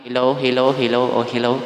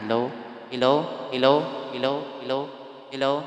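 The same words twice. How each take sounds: First: Mic test at full volume. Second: Mic test at reduced volume. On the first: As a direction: test a mic that is turned all the way up. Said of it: "So, i-full natin". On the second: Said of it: "Pahinaan natin". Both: Shown as a demonstration.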